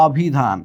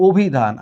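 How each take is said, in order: First: অভিধান read as written, open অ first vowel; spelling pronunciation. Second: অভিধান with a rounded "o" first, obhidhan. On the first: Teacher shows students how অভিধান is written, spelling pronunciation. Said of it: "এইখানে লেখা আছে". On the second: Teacher shows how we really read অভিধান, first vowel as o. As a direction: start অভিধান on a closed o sound. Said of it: "কিন্তু আমরা পড়ছি". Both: Shown as a demonstration.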